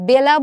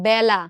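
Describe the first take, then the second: First: The first vowel sounds like 'e' in 'bed'. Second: The first vowel sounds like 'a' in 'cat'. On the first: The speaker calls it wrong. "আমরা কি বেলা বলি না" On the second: The speaker calls it right. "এ বর্ণের উচ্চারণ বিকৃত করে এর মতো করলাম"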